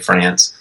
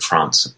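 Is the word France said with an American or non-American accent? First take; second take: American; non-American. First: It is said in a plain American way. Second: It is said in the local, non-American way. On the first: It avoids sounding pretentious in the United States. "So you have to say France. So I'll say it more like Donald Trump would" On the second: It would sound pretentious in the United States. "Here you say like France"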